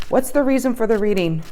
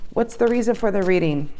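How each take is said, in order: Both takes have the same delivery.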